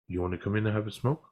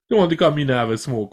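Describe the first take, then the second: First: It is said in the speaker's ordinary accent. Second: It is said in an imitated Jamaican accent. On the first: "I don't really want to do that" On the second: "he said it in a Jamaican accent"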